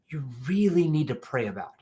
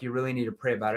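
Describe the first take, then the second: First: The word 'really' is strongly emphasized. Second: The word 'really' gets no special emphasis. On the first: The prospect is pushed to feel more emotional. The speaker calls it right. "why am I emphasizing that you really need to pray about it?" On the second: The prospect just repeats the vague objection. The speaker calls it wrong. "If I say it like this"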